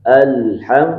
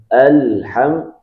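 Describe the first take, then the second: The two takes are said the same way.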